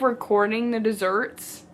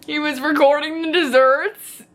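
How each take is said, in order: First: Said in the usual way. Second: Higher, strained repeat of disbelief; cringing disbelief. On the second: Real, not acted. Reader appalled by a character filming desserts, incredulous. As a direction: say it as if it pains you.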